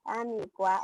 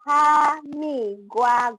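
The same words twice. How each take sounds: First: Said in the usual way. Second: "Hamigwa" very slow, each syllable drawn out; model pronunciation. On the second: Shown as a demonstration. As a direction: spell out "Hamigwa" slowly for the class.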